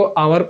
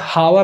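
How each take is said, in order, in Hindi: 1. यह शब्द स्वर की ध्वनि से शुरू होता है। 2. यह शब्द h की ध्वनि से शुरू होता है। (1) "तो आवर को आवर पढ़ा जाता है" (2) "हावर नहीं पढ़ा जाता कभी भी"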